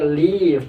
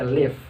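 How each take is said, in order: First: The vowel is held long. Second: The vowel is cut short. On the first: To go away or a holiday. The speaker calls it right. "Jadi bacanya leave" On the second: It means to stay or dwell. The speaker calls it wrong. "tidak dibaca live"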